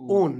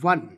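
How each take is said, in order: First: The suffix is said with an 'oh' vowel, like own. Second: The suffix is said with a 'w' start, like won. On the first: The speaker calls it right. "ओन बोलना है" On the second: The speaker calls it wrong. "वन नहीं बोलना"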